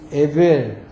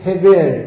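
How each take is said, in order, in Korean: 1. 이 이름은 바로 모음으로 시작해요. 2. 이 이름은 h 소리로 시작해요. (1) "이 에치음을 묵음해버리죠" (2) "여기에서 아마 헤, 헤벨"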